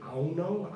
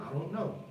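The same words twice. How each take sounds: First: I DON'T KNOW as a loose "I 'on know"; D dropped. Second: I DON'T KNOW with a light D, softly; D sounded. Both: Shown as a demonstration. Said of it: "give or take".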